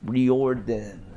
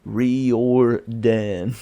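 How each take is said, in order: First: Riordan said REE-or-dan, as it is spelled; spelling pronunciation. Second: Riordan said REE-or-dan, drawn out and rising; spelling pronunciation, louder. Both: Shown as a demonstration. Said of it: "it is spelled".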